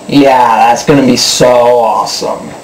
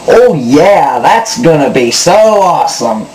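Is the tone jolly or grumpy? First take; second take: grumpy; jolly. First: It sounds grumpy and bitterly sarcastic. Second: It sounds jolly and playfully sarcastic.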